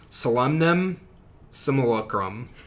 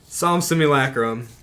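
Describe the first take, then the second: First: The first word is said in a deliberately altered form. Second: The first word is said in its usual form.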